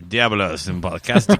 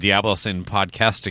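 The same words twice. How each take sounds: First: It is said in a put-on Mexican accent. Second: It is said in his plain own voice.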